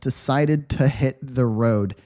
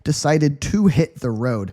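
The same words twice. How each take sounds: First: The word "to" is reduced to "tuh". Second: The word "to" is said in full. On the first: The speaker calls it right. "It sounds a little bit like "tuh,"" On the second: The speaker calls it wrong. "I wouldn't say decided to hit the road. It just takes too much energy"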